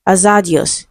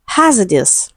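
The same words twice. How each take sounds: First: "Hazardous" as a-ZAH-di-os, h dropped; mispronounced hazardous. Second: "hazardous" as HAZ-uh-dus, two weak schwas; corrected pronunciation. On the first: Teacher voices the mistake for students, "Hazardous" as a-ZAH-di-os. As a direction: say "Hazardous" with a full middle vowel and -dios ending. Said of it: "No, it is pronounced hazardous". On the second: Teacher corrects the last word for students, "hazardous" as HAZ-uh-dus. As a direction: stress the first syllable of "hazardous", weaken the rest. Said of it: "it is pronounced hazardous". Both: Shown as a demonstration.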